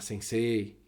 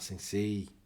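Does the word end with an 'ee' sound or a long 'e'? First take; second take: long e; ee. First: The last syllable is a prolonged e sound. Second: The last syllable ends with an ee sound. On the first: The speaker calls it right. "já tenta falar sensei" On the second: The speaker calls it wrong. "em vez de falar sensei, porque não é sensei com i no final"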